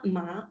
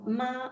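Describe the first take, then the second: First: It is said with the second tone. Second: It is said with the first tone. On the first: It means annoying. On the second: It means mother. "C'est maman"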